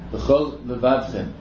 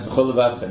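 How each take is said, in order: First: The two L sounds are kept separate. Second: The two L sounds merge into one. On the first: The speaker calls it right. "you have to make sure each one is distinct" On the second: The speaker calls it wrong.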